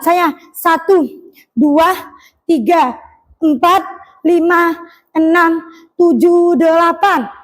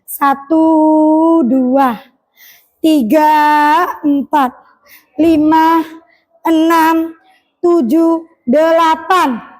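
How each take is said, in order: First: The counting is fast. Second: The counting is slow.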